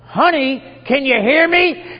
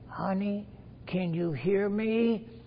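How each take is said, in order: First: It is said in a bolder, louder voice. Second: It is said a little louder than before. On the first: "in a voice a little more bold" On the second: "he raised his tone a little bit"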